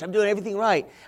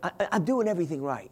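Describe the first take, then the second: First: It sounds proud and boastful. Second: It sounds humble and pious. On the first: "I didn't say it like that" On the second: "I try to say it more pious"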